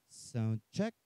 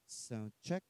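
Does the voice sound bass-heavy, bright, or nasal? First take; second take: bass-heavy; bright. First: The voice sounds fuller with more bass. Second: The voice sounds brighter with more treble. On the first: "itong bass" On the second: "iangat po natin itong treble or tweeter"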